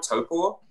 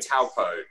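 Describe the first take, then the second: First: The word sounds like 'toe' plus 'paw'. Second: The word does not sound like 'toe paw'. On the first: The speaker calls it right. "like toe, like the toe you have on your foot, and then paw, like a bear paw" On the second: The speaker calls it wrong. "we were saying taupo, and that didn't. That wasn't correct"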